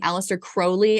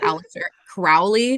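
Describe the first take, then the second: First: Crowley is said rhyming with holy. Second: Crowley is said not rhyming with holy. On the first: The speaker calls it right. "you were saying Alistair Crowley" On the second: The speaker calls it wrong. "I was pronouncing it Alistair Crowley"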